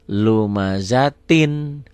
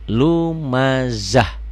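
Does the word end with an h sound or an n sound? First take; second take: n sound; h sound. First: The word ends with a tin sound. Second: The word ends with an h sound.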